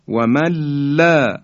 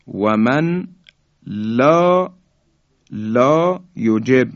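First: و من لا joined as "wa malla", long high ending; nun merged into lam. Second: و من لا in separate words, n sounded, لا lengthened; unmerged nun. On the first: Teacher demonstrating the merged reading, nun lost in lam. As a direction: drop the n of من and double the l of لا. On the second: Teacher presents the next word before merging, nun sounded. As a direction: pause between "wa man" and a long "la". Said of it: "نون ساکن". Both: Shown as a demonstration.

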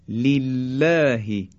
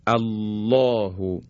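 First: لله with a thin, light L; light, thin lam. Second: الله with a full, heavy L; heavy lam. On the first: Teacher showing learners tarqiq, لله said with light lam. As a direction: stretch لله slowly, lam kept thin. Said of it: "این هم نازکی و ترقیق حرف لام". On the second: Teacher showing learners a thickened lam, الله said heavy. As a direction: draw out الله slowly, lam thick and dark. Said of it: "این درشتی و تقلیظ حرف لام". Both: Shown as a demonstration.

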